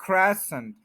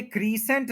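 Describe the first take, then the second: First: क्रेसेंट with short e, the right way; correct version. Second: क्रीसेंट with a long ee, marked as wrong; क्रीसेंट with long ee, the mistake; wrong version. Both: Shown as a demonstration. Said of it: "ये क्रीसेंट नहीं है".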